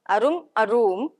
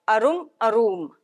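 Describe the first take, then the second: The two takes are said the same way.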